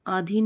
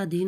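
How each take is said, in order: First: आधीन with long opening 'aa'; mispronounced आधीन. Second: Said in the usual way. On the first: Shown as a demonstration. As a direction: say आधीन as AA-dheen. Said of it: "आधीन नहीं होता". (आधीन में 'आ' लंबा) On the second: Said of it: "अधीन होता है".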